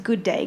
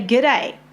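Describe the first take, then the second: First: Both words are said fully and separately. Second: The two words are run together and shortened. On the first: This is the original form the greeting stands for. "What we should be saying is good day" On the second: This is the everyday way people say it. "how we say g'day"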